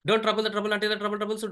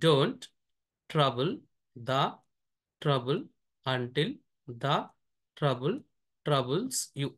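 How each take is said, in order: First: The sentence is read very fast. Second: The sentence is read slowly and carefully. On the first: "నేను read చేస్తాను చూడండి చాలా ఫాస్ట్గా" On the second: "first స్లోగా read చేస్తాను"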